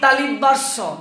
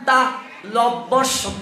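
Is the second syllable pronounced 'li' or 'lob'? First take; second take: li; lob. First: The second syllable is pronounced 'li'. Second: The second syllable is pronounced 'lob'. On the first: The speaker calls it wrong. "যেমন আমরা বলি তালিবাস্য" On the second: The speaker calls it right. "এটা উচ্চারণ তা লব্বস্য"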